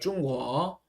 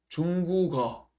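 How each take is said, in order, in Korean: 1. k 소리가 아예 빠져요. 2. k 소리가 마지막 음절로 이어져요. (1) "기억 받침이 없어졌죠" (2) "중국어가 맞아요"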